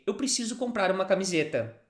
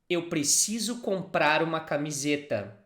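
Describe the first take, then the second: First: It is said a little faster, more connected. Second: It is said at a normal, careful speed.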